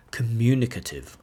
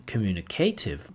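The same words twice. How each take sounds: First: "communicative" stressed on the second syllable, "MU"; "communicative" said as com-MU-nicative; correct word stress. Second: "communicative" stressed on "CA"; "communicative" said as communi-CAY-tive; wrong word stress. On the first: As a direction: hit the MU in "communicative". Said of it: "stress on a particular word, like we say". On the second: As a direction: hit the CA in "communicative", pronounced "kay". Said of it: "not communicative". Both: Shown as a demonstration.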